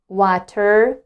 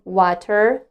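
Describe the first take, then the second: Both takes have the same delivery.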